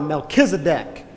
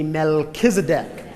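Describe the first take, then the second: First: The name is said loudly and with power. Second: The name is said in a calm, ordinary voice.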